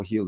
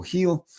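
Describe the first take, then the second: First: Said in the usual way. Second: Heel called out, high and bright; Heel, said higher like a dog command; command cue. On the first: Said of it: "when you say". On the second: Shown as a demonstration. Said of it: "you pat your thigh and you say".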